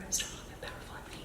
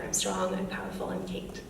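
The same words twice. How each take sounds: First: Barely audible retold whisper; hushed, tiny, breath-only confession. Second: Hushed but voiced, cautious declaration; a little louder than whispering. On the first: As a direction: whisper it as a secret into someone's ear. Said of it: "she whispered into my ear". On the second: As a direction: say it quietly, just finding a voice. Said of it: "she said a little bit louder".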